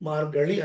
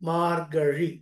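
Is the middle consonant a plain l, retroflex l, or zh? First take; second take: retroflex l; zh. First: The middle consonant is a retroflex l. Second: The middle consonant is zh, tongue not touching. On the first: The speaker calls it wrong. "మార్గళి అంతకన్నా కాదు" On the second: The speaker calls it right. "నాలుకని కొద్దిగా gap ఇచ్చి చదవాలి"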